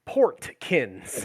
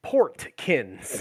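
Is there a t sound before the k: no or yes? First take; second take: yes; yes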